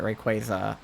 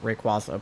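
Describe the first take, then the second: First: Rayquaza with an "ay" middle; show's pronunciation of Rayquaza. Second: Rayquaza with an "ah" middle; own earlier pronunciation of Rayquaza. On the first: Streamer quoting the show's way, Rayquaza as ray-KWAY-za. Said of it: "They're pronouncing it". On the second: Streamer giving their former way, Rayquaza as ray-KWAH-za. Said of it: "I had been pronouncing it". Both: Shown as a demonstration.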